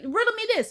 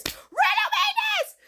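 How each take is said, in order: First: Indignant challenge. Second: Very high, squealed challenge; comically outraged squeal; indignant outburst. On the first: Reviewer challenging the movie's logic. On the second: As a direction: repeat it in a sky-high, exasperated shriek. Repeats challenge in exasperated outburst. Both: Real, not acted.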